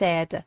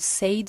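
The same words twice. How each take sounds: First: The vowel is short, as in 'bed'. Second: The vowel is long, as in 'day'. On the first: The speaker calls it right. "به تلفظش دقت کنید" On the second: The speaker calls it wrong. "said نیست"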